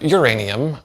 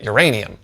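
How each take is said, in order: First: The stress falls where Latin places it. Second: The stress falls where English places it. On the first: "instead of uranium" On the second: "English likes to put the emphasis in a different place than Latin does"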